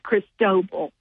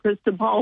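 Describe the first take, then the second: First: The stress is on the middle syllable. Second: The stress is not on the middle syllable. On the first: This is the official pronunciation. The speaker calls it right. "the middle part is the emphasis" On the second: This is how the name looks when read. The speaker calls it wrong. "It looks like Cristobal"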